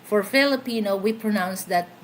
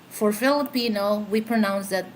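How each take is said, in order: No difference in how they are said.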